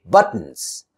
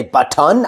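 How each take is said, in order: First: Buttons as but-nz; vowel-less ending. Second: Button as but-TAWN; over-full second syllable. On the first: Teacher modelling natural speech, buttons with bare N ending. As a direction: drop the second vowel in buttons, T straight into N. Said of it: "I say buttons". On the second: Teacher showing what to avoid, button with full "tawn". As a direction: give button a full O in "ton". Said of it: "I don't say button". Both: Shown as a demonstration.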